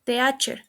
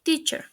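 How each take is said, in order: First: "teacher" as teh-AH-cher; "teacher" in three syllables; mispronounced. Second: "teacher" as TEE-chər; "teacher" in two syllables; correct pronunciation. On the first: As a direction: say "teacher" with e and a separate. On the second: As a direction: say "teacher" with long ee. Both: Shown as a demonstration. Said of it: "The correct pronunciation is".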